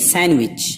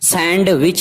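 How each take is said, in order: First: The d sound is silent. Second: The d sound is pronounced. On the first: The speaker calls it right. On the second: The speaker calls it wrong.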